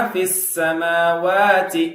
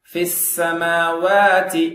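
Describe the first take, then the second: No difference in how they are said.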